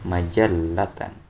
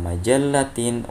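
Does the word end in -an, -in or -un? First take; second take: -an; -in. First: The word ends with the sound -an. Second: The word ends with the sound -in. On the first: The speaker calls it right. "walakin majallatan" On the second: The speaker calls it wrong. "Laisa majallatin"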